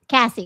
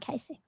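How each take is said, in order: First: The name is said with a short 'a' vowel. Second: The name is said with a long 'ay' vowel. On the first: The speaker calls it right. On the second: The speaker calls it wrong. "not Casey"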